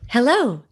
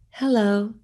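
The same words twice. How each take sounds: First: It is said with a smiling, warm voice. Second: It is said in a sad voice.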